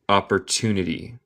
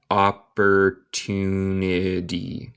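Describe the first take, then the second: First: Said in the usual way. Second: "Opportunity" drawn out very slowly; "Opportunity" said slowly, syllable by syllable; slow pronunciation model. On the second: Shown as a demonstration. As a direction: stretch every syllable of "Opportunity" for a learner. Teacher repeats word slowly for learners.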